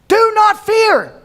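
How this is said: It is yelled harshly like a boss's order.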